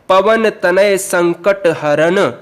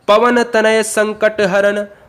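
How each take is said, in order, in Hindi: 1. इसे सादे तरीके से पढ़ा गया है, वाक्यांश के बाद रुककर। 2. इसे हल्के लयात्मक प्रवाह के साथ पढ़ा गया है। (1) "रुक गए।" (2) "हम थोड़ा सा लय में आपको बताए हैं"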